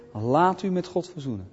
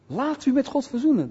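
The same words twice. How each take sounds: First: Said in the usual way. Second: High-pitched evangelist's call; proclaiming appeal. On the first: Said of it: "Dat is roepen". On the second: Shown as a demonstration. Preacher showing how one calls people to God, proclaiming. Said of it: "Dat verkondig je".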